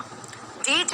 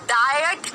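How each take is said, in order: First: The vowel is a long 'ee' sound. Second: The vowel is an 'eye' sound. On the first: "नहीं बोला" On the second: "डाइट नहीं बोला"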